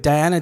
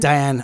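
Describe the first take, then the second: First: "Diana" said with a final -a; mispronounced name. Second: "Diane" without the final -a; corrected name. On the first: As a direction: say "Diana" in three syllables, ending in a. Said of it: "Why I said Diana, right?". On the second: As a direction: say "Diane" in two syllables, ending on n. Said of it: "Why I said Diana". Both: Real, not acted.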